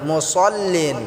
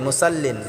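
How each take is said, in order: First: The s sound is heavy and thick. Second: The s sound is light and thin. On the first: The speaker calls it right. "সওয়ারটাকে আমরা মোটা করে উচ্চারণ করব" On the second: The speaker calls it wrong. "এখানে আমরা অনেকে ভুল করেই থাকি।"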